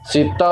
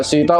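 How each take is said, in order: First: ਸੀਤਾ with a tight doubled t, "sitta"; tight pronunciation. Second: ਸੀਤਾ with long ee and single t, "seeta"; loose pronunciation. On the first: Teacher showing the correct word, tight doubled t in ਸੀਤਾ. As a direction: press firmly on the t in ਸੀਤਾ. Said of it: "ਉਸ ਨੂੰ ਕੱਸ ਕੇ". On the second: Teacher showing what to avoid, loose single t in ਸੀਤਾ. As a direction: let the t in ਸੀਤਾ go loose after a long vowel. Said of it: "ਸੀਤਾ ਉਚਾਰਨ ਨਹੀਂ ਕਰਨਾ". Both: Shown as a demonstration.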